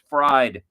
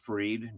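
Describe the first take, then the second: First: The vowel sounds like the one in 'fried'. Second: The vowel sounds like the one in 'freed'. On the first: The speaker calls it wrong. "it sounds funnier if you say it Fried" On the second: The speaker calls it right. "It's Freed"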